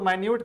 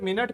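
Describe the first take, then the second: First: It is said as 'my-newt' with a long i. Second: It is said as 'minnit' with a short i. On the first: It means very small. "जब हम माइन्यूट बोलते हैं तो माइन्यूट का मतलब होता है very small" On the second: It means sixty seconds. "जब मिनट पढ़ते हैं तो इसका मतलब होता है सिक्सटी सेकेंड"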